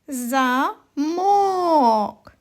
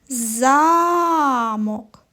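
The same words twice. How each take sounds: First: The stress is on the second syllable. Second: The stress is on the first syllable. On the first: It becomes a different word, not the intended one. The speaker calls it wrong. "Ось наголос стоїть на другому звуковичку О" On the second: It is the intended word, the place being headed to. The speaker calls it right. "поставимо наголос на перший голосний звук А"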